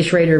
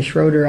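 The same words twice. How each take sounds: First: "Schrader" with a long AY, SHRAY-der; family's pronunciation. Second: "Schroeder" with a long OH, SHROH-der; alternative pronunciation. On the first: Telling the interviewer the family's way, "Schrader" as SHRAY-der. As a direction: say "Schrader" to rhyme with trader. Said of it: "We say Schrader". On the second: Joking about the name others use, "Schroeder" as SHROH-der. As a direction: say "Schroeder" with OH in the first syllable. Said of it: "call me Schroeder". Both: Shown as a demonstration.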